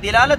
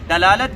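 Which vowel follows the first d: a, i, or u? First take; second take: i; a. First: The first vowel is i. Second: The first vowel is a. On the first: "दिलालत ज्यादा औला है" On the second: "तीनों कह सकते हैं आप"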